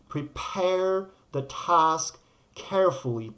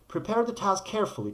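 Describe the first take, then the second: First: The phrase is said at a slower pace. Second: The phrase is said at a fast pace.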